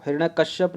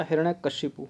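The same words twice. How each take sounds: First: हिरण्यकश्यप said with final -shyap; wrong name ending. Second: हिरण्यकशिपु said with final -shipu, softer; correct name ending. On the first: Teacher rejecting the wrong name, हिरण्यकश्यप with -shyap. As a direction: end हिरण्यकश्यप on a closed p. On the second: Teacher restating the correct name, हिरण्यकशिपु with -shipu. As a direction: end हिरण्यकशिपु on an open pu. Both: Shown as a demonstration. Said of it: "हिरण्यकश्यप नहीं होता".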